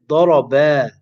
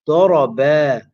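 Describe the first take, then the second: The two takes are said the same way.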